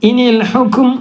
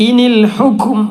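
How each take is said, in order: The two takes are said the same way.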